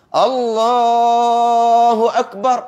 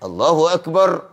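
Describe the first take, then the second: First: The phrase is drawn out long. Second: The phrase is said short.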